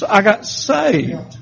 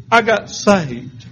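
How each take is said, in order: First: "I got saved" drawn out slowly, each word weighted; slow and weighty. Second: Said in the usual way. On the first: Shown as a demonstration. Hearing himself say "I got saved" slowly and solemnly. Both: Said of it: "What I hear is".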